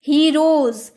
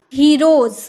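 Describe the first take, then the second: No difference in how they are said.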